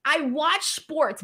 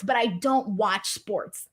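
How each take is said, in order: First: WATCH said slowly and leaned on; I watch sports, with weight on watch; stress on watch. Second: DON'T leaned on, slow and a little softer; but I don't watch sports, with weight on don't; stress on don't. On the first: Explaining to viewers she watches sports, stress on watch. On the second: Telling chat she doesn't really watch, stress on don't. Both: Shown as a demonstration. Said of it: "Let me explain".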